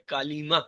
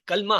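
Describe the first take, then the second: First: The word is said with three syllables. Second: The word is said with two syllables. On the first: The speaker calls it right. "ये कालीमा" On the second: The speaker calls it wrong. "हम लोग नॉर्मली कलमा कहते हैं ना, ये लफ्ज कलमा नहीं है"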